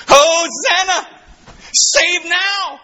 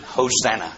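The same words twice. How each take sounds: First: High, slow, stretched-out ringing cry; crowd's cry of hosanna. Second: Said in the usual way. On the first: Retold or imitated. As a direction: call it out like the crowd at the triumphal entry. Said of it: "This is what they said when he came down". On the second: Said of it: "Put in your margin".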